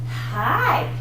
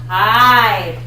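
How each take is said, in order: First: The vowel starts with a breathy h sound. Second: The vowel starts cleanly with air and voice together. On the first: "The aspirated puts the little H in front of it" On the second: "the air and the sound come out on the same time"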